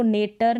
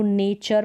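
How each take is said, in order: First: नेटर with a hard T, "nay-tar"; wrong T pronunciation. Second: नेचर as "nay-char"; T read as CH. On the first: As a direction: misread nature as नेटर. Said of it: "नहीं पढ़ते". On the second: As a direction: say नेचर with a clear "ch". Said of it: "टी का उच्चारण च हो गया". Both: Shown as a demonstration.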